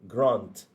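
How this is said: The vowel is a broad 'ah' sound. "Kalau U K berbunyi ah"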